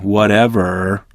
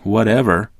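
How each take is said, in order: First: The word is drawn out with disdain. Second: The word is said short and offhand.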